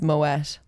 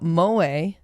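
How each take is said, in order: First: The word ends with a t sound. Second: The word ends without a t sound. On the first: The speaker calls it right. "it's Moet" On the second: The speaker calls it wrong. "not pronounced Moe"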